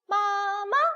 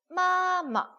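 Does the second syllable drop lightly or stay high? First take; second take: stays high; drops. First: The second syllable pops out high and strong. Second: The second syllable drops lightly and low. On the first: The speaker calls it wrong. "얘 혼자 팍 튀어가지고 마마 이렇게 하시면 안 될 거 아니에요" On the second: The speaker calls it right. "가볍게 내려놓는 성조이기 때문에 마마 마마 이렇게 내려하시면 돼요"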